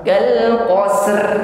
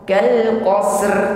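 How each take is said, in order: First: The final consonants are run together directly. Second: The final consonants are run together directly.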